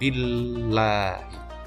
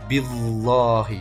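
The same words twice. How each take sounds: First: The lam is light, with unrounded lips. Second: The lam is heavy, with rounded lips. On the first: The speaker calls it right. "maka dibaca tipis atau tarkik" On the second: The speaker calls it wrong. "Jangan sampai membacanya billahi"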